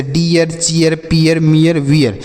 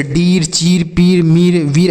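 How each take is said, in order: First: "डियर, चीयर, पियर, मियर, वियर" each in two syllables, ee-yar; "डियर, चीयर, पियर, मियर, वियर" with -iyar endings; correct ee-a glide. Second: "डीर, चीर, पीर, मीर, वीर" each one syllable with long ee; "डीर, चीर, पीर, मीर, वीर" with plain ee-r endings; wrong long-ee readings. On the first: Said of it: "कि ई का उच्चारण होगा". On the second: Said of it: "इस तरीके से आपको इसे नहीं पढ़ना है". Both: Shown as a demonstration.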